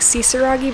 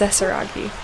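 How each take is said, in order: First: The first vowel sounds like 'i'. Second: The first vowel sounds like 'e'. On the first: The speaker calls it wrong. "I kept saying Sisaragi" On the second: The speaker calls it right. "but it's Sesaragi"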